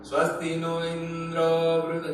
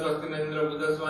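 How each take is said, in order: First: The mantra is recited slowly and drawn out. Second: The mantra is recited quickly and hurriedly. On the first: "धीरे धीरे बोला है" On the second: "जल्दी जल्दी का"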